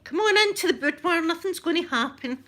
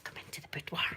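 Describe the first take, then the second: First: High, loud mock enticement; hammed-up come-hither call; playful luring. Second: Hushed mock come-hither; soft, teasing stage whisper; playful luring whisper. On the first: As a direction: coax them in with a sing-out, teasing. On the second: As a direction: whisper it like a pretend temptation. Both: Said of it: "Luring yous in".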